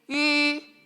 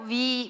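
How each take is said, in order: First: One steady vowel said with rounded lips throughout. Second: The vowel glides from a w sound into i. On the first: This is the standard single-vowel pronunciation. The speaker calls it right. "입술 동그랗게 하고 이를 발음하면 돼. ... 이게 원래 발음이야" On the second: This is how people commonly say it now. The speaker calls it wrong. "근데 우리는 자꾸 위, 위 이렇게 하지"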